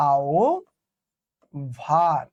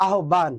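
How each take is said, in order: First: আও ভান split in two, low and deliberate; correct pronunciation demo. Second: আহ্বান said quickly as one word, "ahban"; common mispronunciation. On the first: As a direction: say "ao", pause, then "bhan" for আহ্বান. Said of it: "এটার উচ্চারণ হচ্ছে এরকম". (শুদ্ধ উচ্চারণে ভেঙে ভেঙে আও-ভান) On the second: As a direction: say আহ্বান as many people do, with no "o" glide. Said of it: "আমরা এটা অনেকে উচ্চারণ কি বলি?". (প্রচলিত ভুল উচ্চারণে আহ্বান) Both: Shown as a demonstration.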